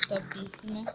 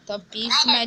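First: Sussurrando topíssima baixinho, sem voz; topíssima dito num sussurro; whisper. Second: Said in the usual way. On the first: Shown as a demonstration. (topíssima sussurrado, quase sem som)

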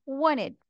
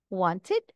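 First: "wanted" said as "wannid", t dropped after n; casual wanted. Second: Said in the usual way. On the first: Shown as a demonstration. Teacher giving learners the relaxed "wanted" as "wannid". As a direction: say "wanted" with no t, wan-nid. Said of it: "You can also say wanted". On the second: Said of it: "You can also say".

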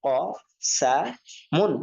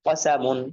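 First: Syllable by syllable, pauses between "ক", "সা", "মুন"; broken pronunciation. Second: "কসামুন" run together as one word; whole word "কসামুন" after sounding out; joined-up reading. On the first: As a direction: sound out "ক ... সা ... মুন", each alone. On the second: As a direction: blend "কসামুন" without breaks. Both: Shown as a demonstration. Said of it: "এরপর আপনারা বাংলা উচ্চারণ করবেন".

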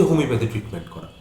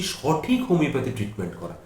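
First: Said in the usual way. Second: সঠিক picked out as the key word; stress on সঠিক. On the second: Shown as a demonstration. Homeopath stressing the word সঠিক he adds to qualify the treatment. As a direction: put the weight on the added word সঠিক. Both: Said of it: "তার আগে আমি একটা শব্দ ব্যবহার করছি".

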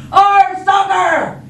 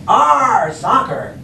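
First: High, loud, drawn-out shout; whole crew yelling. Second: Loud Arr, dropping on soccer; growl-free pirate cheer, moderately loud; pirate yell. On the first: Crew echoes Braidbeard at soccer, full shout. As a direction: yell it all out as a crew. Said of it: "everybody else yelled". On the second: Braidbeard kicks the ball, short pirate yell. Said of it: "kicked the ball and yelled". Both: Acted.

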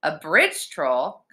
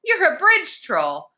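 First: "A bridge troll" drawn out with a rising end; "bridge troll" as a slow doubtful question; puzzled question. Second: High, slow, delighted discovery; high-pitched girlish amazement; excited realization. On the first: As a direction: query "bridge troll" slowly, unconvinced. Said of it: "Connor asked". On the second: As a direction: gasp it out in wonder, high. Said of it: "She was so excited". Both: A narrator's reading.

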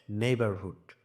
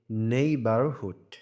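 First: Said in the usual way. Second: neighbourhood slowly, with a strong নেই; stress on নেই. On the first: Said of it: "জোর দিয়ে পড়তে হবে". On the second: Shown as a demonstration. Teacher demonstrating capital-letter stress, slow stressed নেই in neighbourhood. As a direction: stretch out neighbourhood, punching the first syllable নেই. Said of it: "জোর দিয়ে পড়তে হবে নেই".

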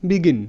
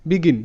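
Both takes have the same delivery.

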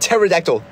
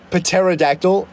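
First: Pterodactyl said with silent P, falling. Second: Pterodactyl said slowly with P sounded, rising; careful pronunciation. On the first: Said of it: "The P is silent". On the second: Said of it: "wanna see my pterodactyl impression". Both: Shown as a demonstration.

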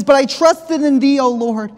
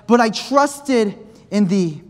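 First: Preached out. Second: Slow reading. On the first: Verse repeated with full force. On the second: Verse read slowly, then preached. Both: Shown as a demonstration.

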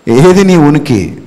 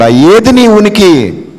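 First: Said in the usual way. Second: Slow, loud challenge. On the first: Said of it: "repeated question, plainer take". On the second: Acted. Preacher challenging the listener slowly and loudly. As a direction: drag it out, loud and high. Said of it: "repeated question, marked take".

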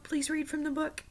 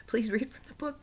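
First: Put-on much higher childlike plea; pleading child. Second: High whispered plea; pleading whisper. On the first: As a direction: ask like a small child begging. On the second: Retold or imitated. Child begging grandfather.

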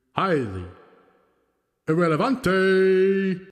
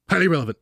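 First: Slow drawn-out ring announcer, echoing; announcer with reverb. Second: Announcer voice without reverb; the same emcee call, no echo; dry announcer. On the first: Pretend. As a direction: stretch the name out like a wrestling emcee with reverb. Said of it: "Luchador announcer style". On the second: Shown as a demonstration. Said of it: "Don't put reverb on this one".

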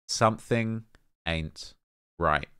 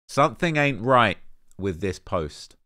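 First: Measured ominous "Something ain't right." with long gaps; dramatic slow verdict. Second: Said in the usual way. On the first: Shown as a demonstration. Repeats verdict slowly for effect.

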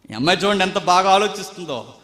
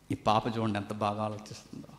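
First: Said in the usual way. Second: ఈ పాప said lower and softer, admiring; quiet first take praising the girl. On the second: Shown as a demonstration. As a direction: murmur it fondly.

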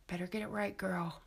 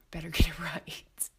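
First: Said in the usual way. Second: Laughing through it. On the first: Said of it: "repeats it laughing". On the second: Real, not acted. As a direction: repeat the line breaking into a laugh. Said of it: "second take, laughing".

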